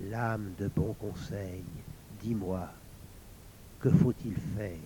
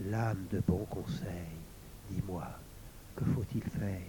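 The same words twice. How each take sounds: First: Softly murmured plea, a little shaky; plain murmured question; trembling murmur. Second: Breathless whispered plea; whispered question to the sword. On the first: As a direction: ask the sword in a hushed, trembling voice. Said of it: "murmura tremblante". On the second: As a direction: whisper it, barely voiced. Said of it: "Lauriane murmura". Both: A narrator's reading.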